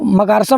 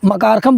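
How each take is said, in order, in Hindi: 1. m से पहले का व्यंजन sh जैसा सुनाई देता है। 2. m से पहले का व्यंजन kh जैसा सुनाई देता है।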